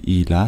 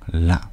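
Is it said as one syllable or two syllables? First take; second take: two syllables; one syllable. First: The two words are said fully and separately. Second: The two words merge into a single syllable. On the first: This is the careful full form. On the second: This is how it sounds in natural speech.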